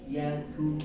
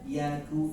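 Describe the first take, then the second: No difference in how they are said.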